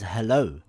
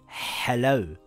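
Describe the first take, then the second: First: It starts with a light, breathy h sound. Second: It starts with a harsh h pushed from the throat. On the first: The speaker calls it right. "we say this word as hello with a ha" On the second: The speaker calls it wrong. "We don't say hello with a ha"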